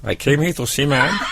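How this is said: It is said in an imitated put-on voice. The speaker calls it right.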